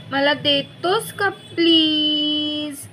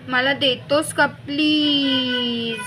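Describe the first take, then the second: First: Slow coaxing plea, higher; slow pleading. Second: Stretched-out sweet begging; slow pleading. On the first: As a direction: stretch every word of the plea. Repeated sweet begging. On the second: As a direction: draw out the please slowly. Sister begs sweetly. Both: A narrator's reading.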